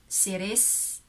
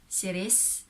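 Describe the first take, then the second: No difference in how they are said.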